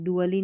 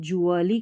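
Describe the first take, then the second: First: The syllable starts with a d sound. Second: The syllable starts with a j sound. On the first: The speaker calls it wrong. "डुअली नहीं पढ़ते" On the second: The speaker calls it right. "इसको जुअली करके पढ़ते हैं"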